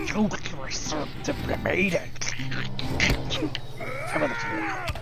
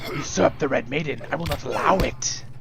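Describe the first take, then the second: First: It is said in a creepy, bony voice. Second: It is said in a plain reading voice.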